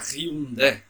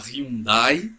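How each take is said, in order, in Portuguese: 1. Fala-se do jeito coreano. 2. Fala-se do jeito brasileiro comum. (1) "na verdade seria Hyundai. A pronúncia coreana é Hyundai" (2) "todo mundo fala Hyundai"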